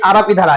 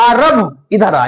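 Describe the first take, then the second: First: The name's final vowel is short and normal. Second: The name's final vowel is drawn out long. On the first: The person being called is nearby. "अगर आरब नजदीक में" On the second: The person being called is far away. "लेकिन अगर आरब दूर में"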